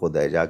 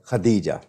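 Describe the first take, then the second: First: The first syllable has the vowel u. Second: The first syllable has the vowel a. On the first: The speaker calls it wrong. "अगर कोई खुदैजा कहता है तो वो तस्गीर का" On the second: The speaker calls it right. "खदीजा। सीधी सी बात है"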